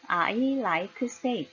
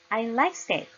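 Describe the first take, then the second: First: It is said with Korean-style extra syllables. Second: It is said with native English pronunciation. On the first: The speaker calls it wrong. "한국어로 해보겠습니다" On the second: The speaker calls it right. "이렇게 해야 알아듣겠죠"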